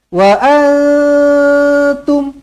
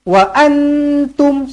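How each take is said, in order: First: The n is hidden in a held nasal hum. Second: The n is fully articulated with the tongue raised. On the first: The speaker calls it right. "macam tu" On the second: The speaker calls it wrong. "Jangan wa antum, wa antum, salah"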